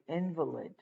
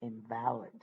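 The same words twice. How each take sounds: First: "invalid" as IN-va-lid, first syllable stressed, second syllable reduced. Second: "invalid" as in-VAL-id, full stressed middle syllable. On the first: Teacher showing the noun meaning incapacitated, stress on IN. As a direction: say "invalid" like the word for a sick person, hit IN. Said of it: "which means you're incapacitated". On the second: Teacher contrasting the other meaning, middle syllable stressed. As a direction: say "invalid" meaning not valid, lean on VAL. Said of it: "as opposed to saying". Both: Shown as a demonstration.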